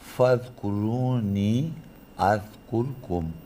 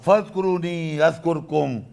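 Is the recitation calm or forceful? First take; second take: calm; forceful. First: It is recited calmly and softly. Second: It is recited loudly and with force. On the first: "उनका लहजा बहुत आराम से बात करने का था। जैसे वो बात करेंगे" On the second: "ये मेरा अंदाज़ है बात करने का। कहना इतना जोर लगाने"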